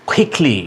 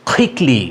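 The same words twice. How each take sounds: The two takes are said the same way.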